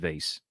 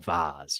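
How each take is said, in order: First: The word is said in a plain, everyday way. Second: The word is said in a fancy, posh way.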